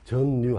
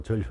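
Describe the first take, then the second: First: 전류 wrongly said "전뉴"; wrong ㄴㄴ pronunciation. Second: 전류 pronounced "절류"; ㄹㄹ pronunciation. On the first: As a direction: double N in the middle of 전류. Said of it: "하지 말라고". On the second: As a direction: double L in the middle of 전류. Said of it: "전류라게 하라고". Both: Shown as a demonstration.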